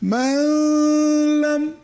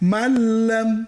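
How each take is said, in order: First: The n is held with a nasal hum. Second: The n merges fully into the l. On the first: The speaker calls it wrong. "এখানে যদি আমরা এভাবে পড়ি মাল্লাম, ভুল হবে" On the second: The speaker calls it right. "উচ্চারণে আর গুন্না করলাম"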